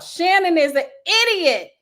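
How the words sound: It is read with strong feeling and emotion.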